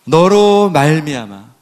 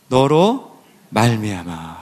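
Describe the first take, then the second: First: 너로 drawn out slowly and firmly; slow, weighty stress on 너로; emphatic repeat. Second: Said in the usual way. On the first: Shown as a demonstration. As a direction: stretch 너로, then land 말미암아 with weight. Emphatic repeat of the quoted answer.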